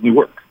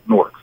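First: It is said the Jersey way, like 'New-irk'. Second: It is said the New York way, like 'Nork'.

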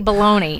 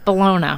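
First: It is said the plain American way, like baloney. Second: It is said the fancier Italian way, like bolonya. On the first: The speaker calls it wrong. "I don't say bologna" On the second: The speaker calls it right. "She went to Italy. ... Fancy"

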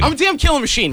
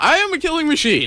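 First: It is said in a deeper, tougher voice. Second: It is said in a high-pitched voice.

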